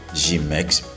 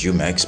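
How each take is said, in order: First: The first vowel is an unrounded ee sound. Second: The first vowel is a rounded French-style u. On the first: It is the typical everyday Haitian Creole form. "in Haitian Creole, we would typically say Jimex" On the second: It sounds French-like or more educated. "it's Jumex"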